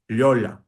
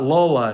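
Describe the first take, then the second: First: The first L is soft, close to a Y. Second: The first L is a plain, hard sound. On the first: The speaker calls it right. "the soft sound" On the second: The speaker calls it wrong. "it's not Lola"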